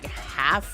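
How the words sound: The word is said with an American vowel. This is how the speaker's friends say it. "they just Americanized, so they keep using half"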